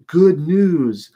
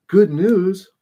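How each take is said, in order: First: Higher and louder, announcing "good news" brightly; eager good news. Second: "Good news?" thrown back higher and louder in disgust; outraged disbelief. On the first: Messenger bursting in on David, eagerly announcing. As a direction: herald proudly calling out "good news". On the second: Furious David hurling the messenger's words back in outrage. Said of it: "He is mad". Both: Retold or imitated.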